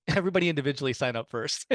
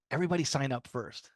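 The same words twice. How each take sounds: First: "Everybody" stressed with a laughing rise. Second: Said in the usual way. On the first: Shown as a demonstration. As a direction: lean on "Everybody individually".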